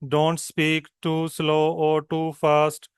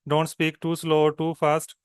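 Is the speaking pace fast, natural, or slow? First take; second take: slow; natural. First: It is spoken at a very slow pace. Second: It is spoken at a natural, moderate pace. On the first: The speaker calls it wrong. "It's very slow" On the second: The speaker calls it right. "दिस वे"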